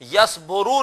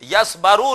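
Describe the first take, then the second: First: The vowel after the b is u. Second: The vowel after the b is a. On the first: "yes बोरू नहीं" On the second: "yes बारू नहीं"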